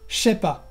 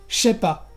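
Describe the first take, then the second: No difference in how they are said.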